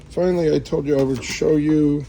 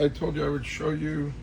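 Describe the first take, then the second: First: Finally louder, announced with emphasis; stress on finally. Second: Said in the usual way. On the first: Shown as a demonstration. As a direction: punch the word finally, then carry on.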